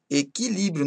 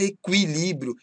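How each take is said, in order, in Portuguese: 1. O u depois do q é mudo. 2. O u depois do q é pronunciado. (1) "não se pronunciam como ditongo" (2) "Nada de falar"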